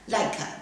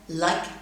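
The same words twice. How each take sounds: First: A short vowel sound follows the final consonant. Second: The final consonant ends short with no vowel. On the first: The speaker calls it wrong. "some students might read the following words like this" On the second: The speaker calls it right. "these words should be read like this"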